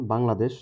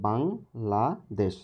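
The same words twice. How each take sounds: First: Said in the usual way. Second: "Bangladesh" in three slow beats, বাং, লা, দেশ; teacher sounding out "Bangladesh" as বাং — লা — দেশ; split into syllables. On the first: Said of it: "এর ভিতরে কয়টা অক্ষর আছে". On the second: Shown as a demonstration. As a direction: pause after each syllable of "Bangladesh". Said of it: "তিনটা অক্ষর আছে".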